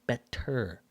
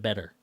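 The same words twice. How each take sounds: First: The middle consonant is a crisp T sound. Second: The middle consonant sounds like a soft D. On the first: The speaker calls it right. "You know it has a T, so you're going better" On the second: The speaker calls it wrong. "instead of better, which sounds like it's got a D"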